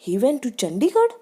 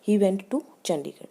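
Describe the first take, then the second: First: It is said in surprise, with high pitch. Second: It is said as a plain statement.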